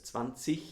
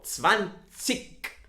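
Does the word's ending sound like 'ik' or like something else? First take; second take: something else; ik. First: The final ending is not pronounced as a hard 'ik'. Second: The final ending is pronounced as a hard 'ik'. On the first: "There are parts in Germany you can pronounce it as zwanzig" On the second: "I pronounce this as a ik"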